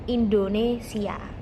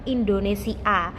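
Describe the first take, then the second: First: A y glide links the i and final a. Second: The final a follows i with no glide. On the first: The speaker calls it right. "sebelum huruf A itu ada huruf Y ... kita harus membacanya Indonesia" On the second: The speaker calls it wrong. "tidak mungkin kita membacanya itu Indonesia"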